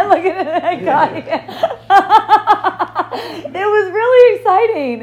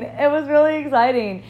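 First: Laughing through the words. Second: Said in the usual way. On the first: Real, not acted. Telling a friend about the police visit, laughing. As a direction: giggle it out, delighted.

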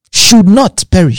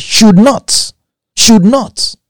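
First: Said in the usual way. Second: Should said higher each time, building; stress on should. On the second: Shown as a demonstration. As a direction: lean on should and lift it. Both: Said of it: "Mark that word".

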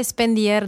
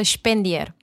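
First: "Spendier" said slowly as it is written; slow spelling version of "Spendier"; as spelled. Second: "Spendier" with an opening SH sound, Șpendier; German-style "Spendier", starting shp; as pronounced. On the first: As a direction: read "Spendier" letter by letter-like, slow. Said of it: "Se scrie Spendier". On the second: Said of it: "se pronunță Spendier". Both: Shown as a demonstration.

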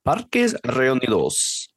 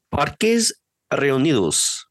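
First: Spanish accent, slow and deliberate. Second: Slow, careful Spanish pronunciation; Spanish accent. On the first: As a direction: roll it out the Spanish way. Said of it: "That's really good". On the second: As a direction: say it like a native Spanish speaker. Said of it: "can you do a good Spanish accent for that word". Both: Shown as a demonstration.

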